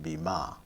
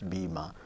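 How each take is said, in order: First: The stress is on the second syllable. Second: The stress is on the first syllable. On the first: The speaker calls it wrong. "Nobody pronounces it bima" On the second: The speaker calls it right. "Left one is strong and the right one is weak. And we also pronounce them as bima"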